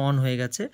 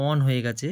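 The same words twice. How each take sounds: The two takes are said the same way.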